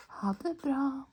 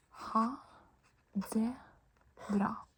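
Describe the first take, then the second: First: Said in the usual way. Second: Slow, with a pause after each word; spaced out for learners. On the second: Shown as a demonstration. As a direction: say "ha", "det", "bra" as separate words. Teacher breaks phrase into words.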